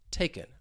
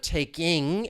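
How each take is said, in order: First: The word ends with an 'in' sound. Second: The word ends with a full 'ing' sound. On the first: "I drop the G, it's going to sound like taken" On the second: "instead of taking, and you hear that ing sound"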